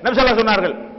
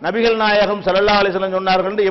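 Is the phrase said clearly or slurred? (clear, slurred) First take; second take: slurred; clear. First: The words are run together and syllables swallowed. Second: Every syllable is pronounced fully and distinctly. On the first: The speaker calls it wrong. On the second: The speaker calls it right.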